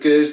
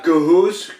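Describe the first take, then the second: First: The vowel sounds like 'er'. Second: The vowel sounds like 'oo'. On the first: The speaker calls it wrong. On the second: The speaker calls it right.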